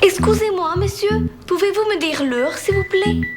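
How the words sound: It is spoken with a put-on Spanish accent. The character is a Spanish woman. The speaker calls it wrong. "C'est quoi cet accent-là? ... C'est une femme espagnole"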